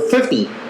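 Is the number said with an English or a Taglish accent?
English. It is said shorter, with an English accent. "English version is a little different... It's just a little shorter"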